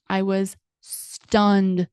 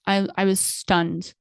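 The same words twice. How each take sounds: First: Very slow, each word stretched; stunned, dragging every word; drawn out. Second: Said in the usual way. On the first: Real, not acted. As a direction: let "I was stunned" hang, slowly. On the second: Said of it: "I was stunned, okay?".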